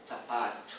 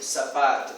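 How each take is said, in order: First: Tapato with t for the s, low and soft; child's version. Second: Said in the usual way. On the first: Shown as a demonstration. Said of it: "s por t". (tapato com t no lugar de s)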